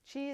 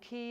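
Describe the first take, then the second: First: The word is said the Chinese way. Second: The word is said the Korean way. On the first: "qi is the Chinese word for energy" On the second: "qi is the Korean or Japanese pronunciation"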